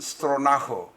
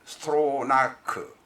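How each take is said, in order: First: The name ends with a raspy ch sound. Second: The name ends with a hard k sound.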